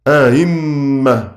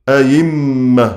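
First: The second hamza is softened, eased toward a vowel. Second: The second hamza is replaced by a clear y sound. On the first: "التسهيل واضح" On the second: "الإبدال"

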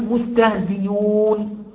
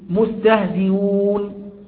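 First: The glottal stop is replaced by a y sound. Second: The glottal stop is softened, said only lightly. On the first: "ده همز مضموم بعد كسر فيبدأ الياء" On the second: "فنقف بالتسهيل"

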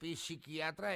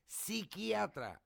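First: The word starts with an audible P sound. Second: The word starts without any P sound.

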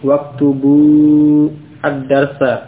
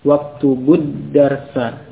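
First: The words are said separately with the full article. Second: The words are linked with the article vowel dropped.

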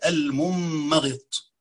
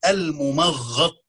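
First: The second m sound is doubled. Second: The gh sound is doubled. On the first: The form comes from the pattern infi'al. "تبقى ممغط بتشديد الميم الثانية" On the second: The form comes from the pattern tafa''ul. "يعني المفعل من تفعل"

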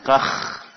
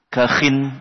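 First: The word ends on a bare kh sound. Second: The word ends with an added -in sound. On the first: "dengan kakh biskanil kha" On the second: "boleh di kasroh bersama tanwin"

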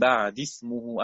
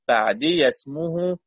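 First: The ya is dropped before the next word. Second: The ya is pronounced with an a vowel. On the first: "بالسكون ثم بالحذف لالتقاء الساكن" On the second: "بالياء بفتح الياء"

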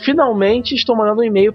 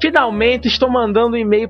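First: It is read in a neutral accent. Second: It is read in a Pernambuco accent.

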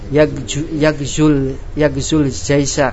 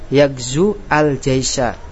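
First: The words run together without a glottal onset. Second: The article is voiced separately with a glottal onset. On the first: The speaker calls it right. "Yang benar apa bacaannya?" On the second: The speaker calls it wrong. "Ini bacaan yang salah"

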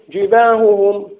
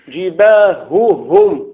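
First: The middle h sound is barely heard. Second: The middle h sound is clearly heard. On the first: The speaker calls it wrong. "أين الهاء؟" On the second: The speaker calls it right. "لا"

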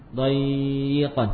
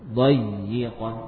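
First: The doubled y sound is held too long. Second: The doubled y sound is held briefly. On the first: The speaker calls it wrong. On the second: The speaker calls it right.

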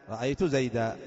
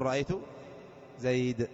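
First: The name ends in a long a vowel. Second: The name ends in a bare consonant. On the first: Most Arabs pause this way. "بإبدال التنوين ألفا" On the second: Only some Arabs pause this way. "هناك من العرب من يقف على نفس المنون المرفوع المنون المجرور"

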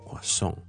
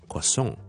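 First: The stress is on the last syllable. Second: The same.

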